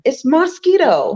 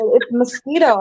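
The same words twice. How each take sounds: First: It is said in a Caribbean accent. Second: It is said in a standard North American accent.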